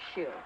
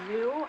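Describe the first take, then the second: First: The name begins with a sh sound. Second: The name begins with a z sound. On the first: "I've been pronouncing it shoe" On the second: "is it pronounced zoo?"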